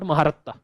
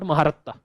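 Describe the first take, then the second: First: The name is said with four syllables, Ma-ha-rat-ta. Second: The same.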